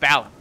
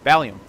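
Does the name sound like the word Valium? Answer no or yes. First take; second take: no; yes. First: The name is said without rhyming with Valium. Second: The name is said to rhyme with Valium.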